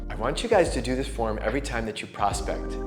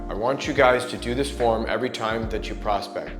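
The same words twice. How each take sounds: First: The voice sounds warm, spoken through a smile. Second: The voice sounds neutral, without a smile.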